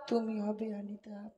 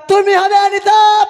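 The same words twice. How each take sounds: First: It is said softly and quietly. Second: It is said loudly and forcefully.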